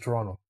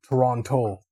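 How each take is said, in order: First: The second T is dropped. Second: The second T is clearly pronounced. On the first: The speaker grew up in the city. "if you grew up here, everyone just says Toronto" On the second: The speaker is new to the city. "newer people that like migrated to the city, they say the word Toronto"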